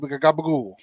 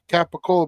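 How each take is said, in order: First: It is said with a New Jersey Italian-American pronunciation. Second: It is said with the standard pronunciation. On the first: The speaker calls it wrong. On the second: The speaker calls it right.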